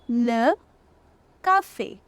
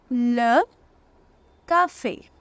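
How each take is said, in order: Both takes have the same delivery.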